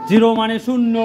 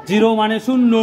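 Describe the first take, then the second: Both takes have the same delivery.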